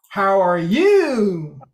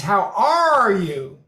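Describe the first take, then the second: First: Slow, falling at the end; slow falling question. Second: Slow, pitch bending mid-phrase; pitch shift mid-sentence. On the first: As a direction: let it fall away at the end. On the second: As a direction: bend the pitch in the middle. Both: Shown as a demonstration. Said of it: "in the middle of a sentence".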